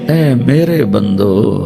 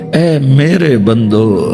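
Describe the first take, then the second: The two takes are said the same way.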